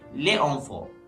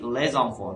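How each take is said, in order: First: The S of les is silent before enfants. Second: The S of les is sounded as Z. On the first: The speaker calls it wrong. "if it's without this rule, it will be pronounced like" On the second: The speaker calls it right. "this sentence will be"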